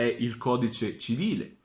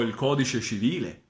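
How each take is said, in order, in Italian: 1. Si dice con pronuncia italiana standard. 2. Si dice con pronuncia toscana. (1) "l'italiano standard è" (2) "i toscani eh, possano dire"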